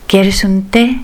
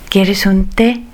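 No difference in how they are said.

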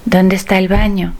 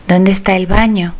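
Both takes have the same delivery.

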